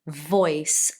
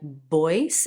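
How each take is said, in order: First: The word begins with a clear V sound. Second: The word begins with a B-like sound. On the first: The speaker calls it right. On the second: The speaker calls it wrong.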